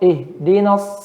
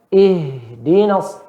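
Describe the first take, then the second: First: The h stops short without flowing breath. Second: The h flows out with audible breath. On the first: The speaker calls it wrong. "jangan kita baca" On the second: The speaker calls it right. "sifatnya nanti dia mengalir suaranya dan udaranya"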